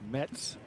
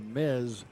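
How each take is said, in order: First: The name ends with a ts sound. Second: The name ends with a z sound. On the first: This is how the brand's owner says it. "it's actually pronounced Mets" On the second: This is how it is commonly said locally. "as we pronounce it here in the United States"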